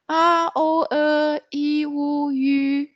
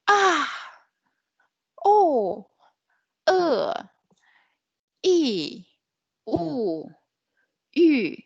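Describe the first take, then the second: First: The pitch stays high and level throughout. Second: The pitch falls sharply from high to low. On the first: "So this is the first pitch" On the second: "The last one is a falling tone"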